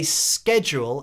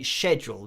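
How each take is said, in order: First: It begins with a hard k sound. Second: It begins with a soft sh sound. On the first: This is the American way of saying it. "you say schedule in the U S A" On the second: This is the British way of saying it. "we say schedule. We don't uh, use that hard uh, C"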